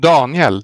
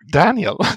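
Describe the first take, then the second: First: The name is said with a Swedish pronunciation. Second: The name is said with an English pronunciation. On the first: This is the name's original native form. The speaker calls it right. "your name is actually" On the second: This is the form English speakers usually use. The speaker calls it wrong. "not Daniel"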